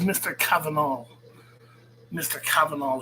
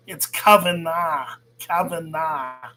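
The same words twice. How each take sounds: First: "Kavanagh" said as "Kavanol", ending in an l, imitating the rival; mocking the rival's "Kavanagh" with an l at the end; mocked mispronunciation. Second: Slow, deliberate "Kavanagh" the way he says it himself; correcting the name: "Kavanagh", said slowly; correct pronunciation. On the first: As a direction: mimic the American getting "Kavanagh" wrong. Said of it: "can't pronounce European names". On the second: Shown as a demonstration. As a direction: spell it out, slowly and firmly. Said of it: "Get it right".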